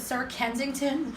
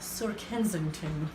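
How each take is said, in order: First: The name is said in an ordinary voice. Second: The name is said in a posh voice.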